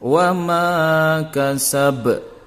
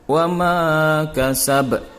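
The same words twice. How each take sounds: First: The final short vowel is dropped. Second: The final short vowel is dropped.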